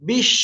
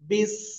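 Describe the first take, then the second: First: The syllable ends with an sh sound. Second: The syllable ends with a plain s sound. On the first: The speaker calls it wrong. "বিশ এরকম বলা যাবে না" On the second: The speaker calls it right. "বা সিনজের বিস"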